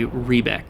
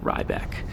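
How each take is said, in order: First: The first vowel sounds like 'ee'. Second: The first vowel sounds like 'eye'. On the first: The speaker calls it right. "it is a long E. It is E rather than I" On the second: The speaker calls it wrong. "I've been calling them Rybek"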